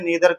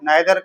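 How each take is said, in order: First: The first vowel sounds like 'ee'. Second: The first vowel sounds like 'eye'. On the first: "उच्चारण दोनों सही हैं" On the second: "नाइदर कह लो चाहे नीदर कह लो"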